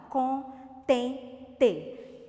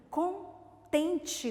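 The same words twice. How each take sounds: First: CONTENTE split into con, ten, te with pauses; syllable by syllable. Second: "Contente" with a pause after con; broken into parts. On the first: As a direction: count out "Contente" in three beats, final "te" fully sounded. ("Contente" sílaba por sílaba: con, ten, te) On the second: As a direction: say "Contente" as con, then tente. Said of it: "tem quantas sílabas?". ("Contente" com pausa depois de "con") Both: Shown as a demonstration.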